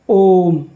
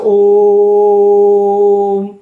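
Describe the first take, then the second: First: The O vowel is held for a normal length. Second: The O vowel is stretched out very long.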